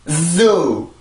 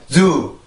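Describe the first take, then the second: First: The word is said strongly, with stress. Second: The word is said weakly, without stress. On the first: "강세가 있기 때문에" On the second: "만약에 강세가 없다면"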